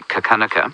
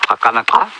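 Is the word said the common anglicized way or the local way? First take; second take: anglicized; local. First: The word is said the common anglicized way. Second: The word is said the original local way. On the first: This is how most people say it. The speaker calls it wrong. "you'll hear them say Kakanaka" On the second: This is how the word should be said. The speaker calls it right. "the way you say it is this"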